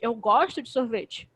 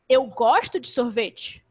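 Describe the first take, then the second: First: The stress falls on the word gosto. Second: The stress falls on the word eu. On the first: Contrary to what was claimed, I do like it. "eu não não gosto de sorvete" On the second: It is me, not someone else, who likes it. "Não é o fulano, sou eu"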